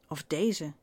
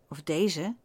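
Both takes have the same delivery.

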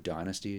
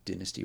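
First: The word has an American pronunciation. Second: The word has a British pronunciation. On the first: This is the listeners' way of saying it. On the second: This is the speaker's own way of saying it.

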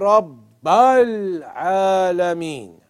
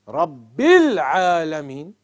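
First: The vowel after Rabb is an 'a' sound. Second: The vowel after Rabb is an 'i' sound. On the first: The speaker calls it wrong. "If somebody was to say" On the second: The speaker calls it right. "It's supposed to be Rabbil Alameen"

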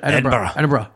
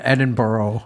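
First: The final syllables are clipped and reduced. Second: The final syllables are said in full. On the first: The speaker calls it right. "drop the oro. Drop everything" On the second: The speaker calls it wrong. "I was pronouncing it Edinburgh"

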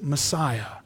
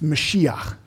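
First: The word is pronounced the English way. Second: The word is pronounced the Hebrew way. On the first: "We would pronounce it Messiah" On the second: "what that word anointed sounds like in Hebrew"

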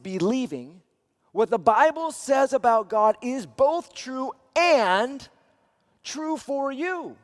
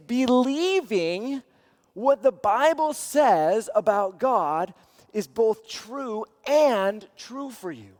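First: The word "and" is strongly stressed. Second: No special stress falls on "and".

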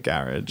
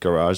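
First: It is said with a British accent. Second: It is said with an American accent.

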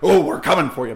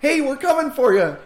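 First: It sounds threatening and menacing. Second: It sounds friendly and upbeat.

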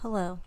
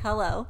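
First: It is said quietly. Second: It is said louder.

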